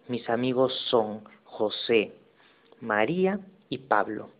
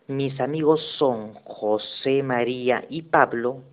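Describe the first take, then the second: First: A pause separates José from María. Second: José María runs together as one name.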